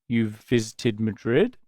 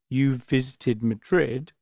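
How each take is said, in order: First: The voice rises at the end. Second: The voice falls at the end.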